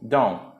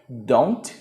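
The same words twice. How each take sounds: First: The word is said short and reduced. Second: The word is said in full, clearly. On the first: The speaker calls it right. "você vai ler como se fosse um don't" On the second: The speaker calls it wrong. "você não vai ler don't"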